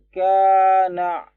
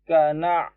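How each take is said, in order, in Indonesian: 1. Vokal pada ka ditahan selama dua ketukan. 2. Vokal pada ka pendek dan cepat. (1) "Kalau dua harokat itu ka na. Ada yang salah gitu biasanya" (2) "secepat itu kalau hanya satu harokat"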